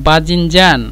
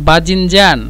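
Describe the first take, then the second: No difference in how they are said.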